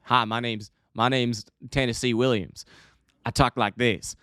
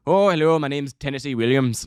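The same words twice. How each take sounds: First: Put-on vague Southern accent; Tennessee Williams, Southern drawl. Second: Mock Irish accent. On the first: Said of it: "is that a Tennessee accent?". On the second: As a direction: put on a comic Irish brogue. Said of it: "is not an Irish writer".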